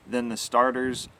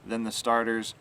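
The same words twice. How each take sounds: The two takes are said the same way.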